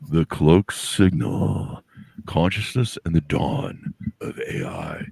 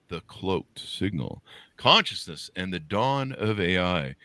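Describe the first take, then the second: First: It is read in a dramatic movie-trailer voice. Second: It is read in a plain speaking voice.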